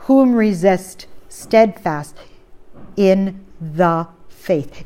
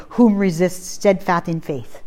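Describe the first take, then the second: First: Slow, deliberate "in the faith" with weight on "the"; stress on the. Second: Said in the usual way. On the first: Shown as a demonstration. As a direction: draw out "in the faith", pressing "the". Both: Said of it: "It does not say".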